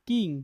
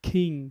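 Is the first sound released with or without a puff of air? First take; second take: without; with. First: The first sound has no strong puff of air. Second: The first sound has a strong puff of air. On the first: "যেখানে আমরা বলতাম" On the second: "ওইখানে stress দিলে কি হবে"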